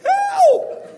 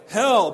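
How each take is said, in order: First: It is said in a very high voice. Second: It is said in a normal low voice.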